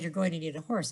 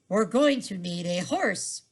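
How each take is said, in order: First: It is said at normal pace and volume. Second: It is said slowly and a little louder.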